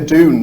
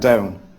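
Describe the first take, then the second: First: The vowel is a pure oo sound. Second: The vowel glides closer to ow. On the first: This is the traditional Northeast pronunciation. "The husband doesn't say Doon" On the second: This is how the husband says it. "He says something more like down"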